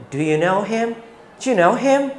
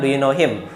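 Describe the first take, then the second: First: Quick, clipped native-style question with a rising end; casual native English. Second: Said in the usual way. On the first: Shown as a demonstration. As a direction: say it like a relaxed native English speaker. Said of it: "seperti orang Inggris ngomong pada umumnya". (seperti orang Inggris bicara santai, cepat dan naik di akhir)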